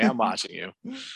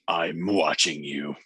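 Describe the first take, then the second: First: It is said in a warm, pleasant tone. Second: It is said in a menacing, threatening tone. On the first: It is reassuring, meant to make her feel safe. "What if it's more of a pleasant way?" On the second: It is a threat. "Why does she say it like that?"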